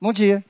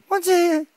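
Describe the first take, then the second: First: Said in the usual way. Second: "Bom dia" said much higher in a cartoon spider voice; high-pitched "Bom dia" as a cartoon spider. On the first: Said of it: "greeting in own voice then spider voice". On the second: Spider answers greeting.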